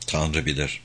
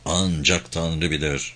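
First: Said in the usual way. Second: Low, quiet, drawn-out "Ancak"; slow emphatic repetition. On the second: A narrator's reading. Bruce thinking to himself about the journey ahead, slow and emphatic. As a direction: stretch "Ancak" slowly, keeping it low and soft. Thought repeated with added emphasis.

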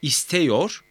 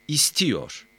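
First: "İsteyor" with open e before -yor, rising; unnarrowed E vowel. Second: "istiyor" with i before -yor, falling; narrowed vowel. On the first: ("İsteyor", daralmamış e ile) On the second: ("istiyor", daralmış i ile) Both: Shown as a demonstration. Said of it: "A E ünlülerini daraltır".

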